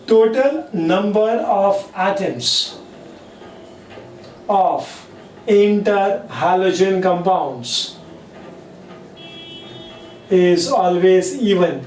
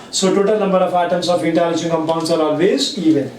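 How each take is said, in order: First: Slow, deliberate dictation with long pauses; teacher dictating the rule to students. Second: Said in the usual way. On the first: Shown as a demonstration. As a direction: say each chunk slowly for note-taking. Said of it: "teacher dictating the rule". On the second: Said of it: "teacher restating the rule".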